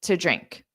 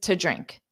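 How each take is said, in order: First: The word 'to' is a quick reduced t. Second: The word 'to' is a quick reduced t.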